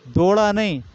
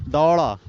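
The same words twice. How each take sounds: First: दौड़ा said as "do-ra", higher; the mistaken दौड़ा with a closed "o"; wrong pronunciation. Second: दौड़ा said as "dau-ra" with an open "au"; the right दौड़ा, vowel opened wide; correct pronunciation. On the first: Teacher to class, showing the wrong दौड़ा. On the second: Teacher to class, giving the right दौड़ा. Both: Shown as a demonstration.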